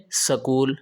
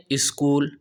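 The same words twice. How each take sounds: First: سکول said sakool with a short a between s and k; سکول in Punjabi style, sakool. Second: اسکول said iskool with a leading i; اسکول in Karachi style, iskool. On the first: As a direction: split the s-k cluster: sakool. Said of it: "Punjab والے کہتے ہیں سکول". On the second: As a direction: put an i before the s: iskool. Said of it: "Karachi والے کہتے ہیں". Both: Retold or imitated.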